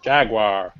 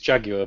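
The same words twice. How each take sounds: First: It is said with an American accent. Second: It is said with a British English accent.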